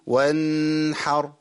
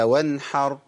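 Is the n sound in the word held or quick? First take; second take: held; quick. First: The n sound is held and nasalized. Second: The n sound is short with no nasal hold. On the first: The speaker calls it wrong. "كتير من الناس كان بيقف على النون ويقول وانحر" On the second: The speaker calls it right. "هي وانحر"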